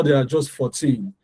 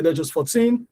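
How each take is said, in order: First: "fourteen" with even syllables, falling at the end; equal stress. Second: Put-on "fourteen" rising onto a stressed TEEN; musical stress. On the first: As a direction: give FOUR and TEEN in "fourteen" the same weight. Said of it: "they are equal in sound". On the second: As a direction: lift and lengthen the TEEN of "fourteen". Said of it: "That is the music in the language". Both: Shown as a demonstration.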